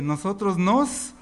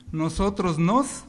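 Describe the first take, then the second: First: Louder. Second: Plain. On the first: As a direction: say it louder, slowly, drawn out. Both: Shown as a demonstration. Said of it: "No, más fuerte".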